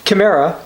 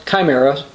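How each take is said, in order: First: Said in the usual way. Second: "chimera" with a long I, ky-MERA; alternative pronunciation. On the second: Shown as a demonstration. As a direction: say "chimera" starting like "kye". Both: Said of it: "sometimes pronounced chimera".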